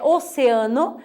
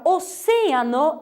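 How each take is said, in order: First: Oceano said o-ce-A-no; Portuguese stress. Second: Oceano said o-CE-a-no; stress on CE. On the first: Teacher giving the Portuguese form, oceano stressed on A. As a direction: lean on A in oceano. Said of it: "em português é oceano". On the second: Teacher showing the Spanish tonic syllable, oceano stressed on CE. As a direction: lean on CE in oceano. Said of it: "a sílaba tônica é oce". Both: Shown as a demonstration.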